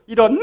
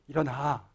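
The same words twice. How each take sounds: First: It is shouted at the highest pitch. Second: It is said in a calm, normal voice.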